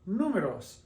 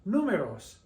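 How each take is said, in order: First: The stress is on the first syllable. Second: The stress is on the first syllable.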